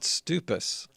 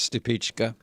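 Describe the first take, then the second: First: The name ends with an 's' sound. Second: The name ends with a 'ka' sound. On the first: The speaker calls it wrong. "a lot of people pronounced it stupus" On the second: The speaker calls it right. "he told us it was Stupichka"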